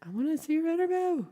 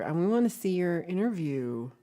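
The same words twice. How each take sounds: First: Very high, silly put-on pleading; playful high voice. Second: Said in the usual way. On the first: Streamer begging viewer to share the interview, playful high voice. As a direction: squeak it out as a playful demand.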